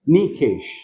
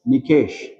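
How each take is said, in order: First: The stress is on the first syllable. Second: The stress is on the second syllable. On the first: The speaker calls it wrong. "what happens if I play around with the stress of the syllable?" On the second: The speaker calls it right. "my actual stress goes on K"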